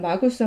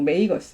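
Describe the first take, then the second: First: The first vowel sounds like 'ah'. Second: The first vowel sounds like 'ay'. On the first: "라틴어로 마고스고" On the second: "영어로 뭐 메이거스 이렇게 발음하는데"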